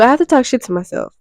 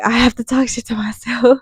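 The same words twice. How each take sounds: First: Said in the usual way. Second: Whispered "I have to talk shit to myself". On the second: Real, not acted. Confessing her habit to viewers, whispered. Repeats line, then whispers it.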